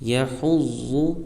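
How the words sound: The doubled consonant flows in one breath. The speaker calls it right. "एक ही सांस और एक ही आवाज़ में"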